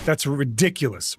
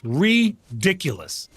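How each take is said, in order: First: Said in the usual way. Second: "Ridiculous" said slowly, first syllable stretched; slow, emphatic "Ridiculous"; drawn-out emphasis. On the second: Real, not acted. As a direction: pull "Ridiculous" apart, leaning long on "Ri". Repeats word stretched for emphasis.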